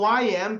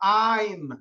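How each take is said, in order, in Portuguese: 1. É dito como duas palavras completas e separadas. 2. É dito como uma sílaba contraída.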